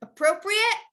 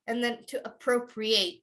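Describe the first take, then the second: First: Appropriate: said a-PRO-pree-it with the ending -it; noun form. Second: Appropriate: said a-PRO-pree-ayt with the ending -ayt; verb form. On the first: Teacher modeling the noun appropriate, higher and clear. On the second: Teacher modeling the verb appropriate, ending ayt. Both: Shown as a demonstration.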